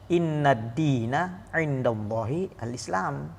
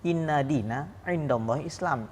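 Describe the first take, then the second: First: An 'al' sound comes before 'Islam'. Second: No 'al' sound comes before 'Islam'. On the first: The speaker calls it right. "Yang benar adalah" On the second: The speaker calls it wrong. "Ini salah ya"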